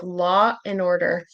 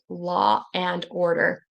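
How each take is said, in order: First: The words run together and the D is dropped. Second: Each word is said carefully, with the D sounded. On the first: "in connected speech and in casual speech, you'll hear the D will go away" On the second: "if I pronounce it really carefully"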